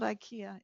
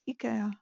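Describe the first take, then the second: First: The name is pronounced the usual English way. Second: The name is pronounced the Swedish way. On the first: The speaker calls it wrong. "It's not IKEA" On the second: The speaker calls it right. "it's IKEA. I've just been in Sweden"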